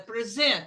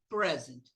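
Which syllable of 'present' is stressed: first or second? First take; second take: second; first. First: The stress is on the second syllable. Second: The stress is on the first syllable. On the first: It is a verb meaning to give or show. "Quando é verbo, é present" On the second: It is a noun meaning a gift. "Quando é substantivo, quando é nome aqui"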